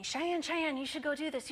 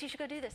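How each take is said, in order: First: Sing-song teasing, pitched higher; teasing teammates. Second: Softer sing-song tease, still higher; teasing repeat. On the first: Teammates egging Cheyenne on, sing-song teasing. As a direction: tease her like a pushy teammate. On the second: Teammates nudging Cheyenne toward the ministry, fading sing-song tease. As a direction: trail off the teasing chant. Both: Retold or imitated. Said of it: "they're teasing me".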